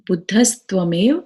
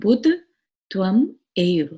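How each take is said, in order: First: The words are joined into one run. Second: The words are said separately, not joined.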